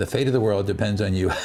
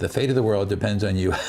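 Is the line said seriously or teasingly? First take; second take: teasingly; teasingly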